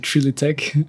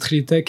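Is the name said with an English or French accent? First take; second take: English; French. First: It is said with an English accent. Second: It is said with a French accent.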